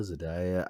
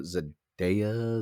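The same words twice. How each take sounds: First: Zendaya said zuh-DIE-uh, softer; unsure pronunciation. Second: Zendaya said zuh-DAY-uh; unsure pronunciation. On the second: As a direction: say "Zendaya" with a DAY middle, drawn out. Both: Real, not acted. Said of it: "I don't know her name".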